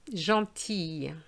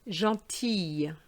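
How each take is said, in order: No difference in how they are said.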